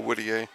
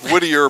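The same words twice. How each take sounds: First: The name is said with a French pronunciation. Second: The name is said with a local English pronunciation. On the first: "I go with the French pronunciation" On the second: "probably around here"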